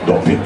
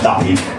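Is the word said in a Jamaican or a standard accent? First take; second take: Jamaican; standard. First: The vowel is said with a Jamaican O sound. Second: The vowel is said in a standard way. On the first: The speaker calls it right. "with an O, if you want to pronounce it in a Jamaican accent" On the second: The speaker calls it wrong. "not duppy"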